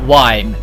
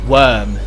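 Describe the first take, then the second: First: The vowel sounds like the one in 'time'. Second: The vowel sounds like the one in 'term'. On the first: The speaker calls it wrong. "not wime" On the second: The speaker calls it right. "the official pronunciation"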